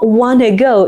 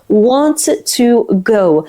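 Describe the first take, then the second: First: 'Want to' is reduced and blended into 'wanna'. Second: 'Want to' is said fully as two words. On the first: This is how native speakers say it in speech. The speaker calls it wrong. "it's not wanna go" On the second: This is how it is written. The speaker calls it right. "it's want to go"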